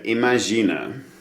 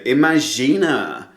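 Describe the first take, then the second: First: It is said plainly, without extra emphasis. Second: It is said with over-the-top enthusiastic emphasis.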